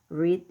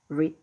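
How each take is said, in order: The two takes are said the same way.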